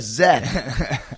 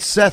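First: The name begins with a buzzing Z sound. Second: The name begins with a hissing S sound. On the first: The speaker calls it wrong. "you said Zeth" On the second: The speaker calls it right. "It's Seth with the S"

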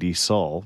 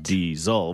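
First: The middle consonant is an s sound. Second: The middle consonant is a z sound. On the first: The speaker calls it wrong. "apparently I must have been saying diesel" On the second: The speaker calls it right. "Pronounce the Z"

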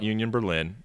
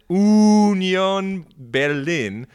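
First: The name is said in an American Midwestern accent. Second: The name is said with a German accent.

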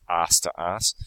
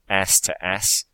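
First: The title is said with an Australian pronunciation. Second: The title is said with an American pronunciation. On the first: "but if you're in Australia, it's" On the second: "if you're in America, it's called"

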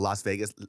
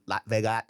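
First: The s at the end of 'Las' is pronounced. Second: The s at the end of 'Las' is dropped.

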